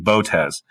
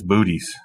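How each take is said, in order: First: The name is said in its formal pronunciation. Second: The name is said to sound like 'booties'. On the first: This is how professional astronomers say it. "the proper way" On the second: This is a joking, casual version. "That's Booties"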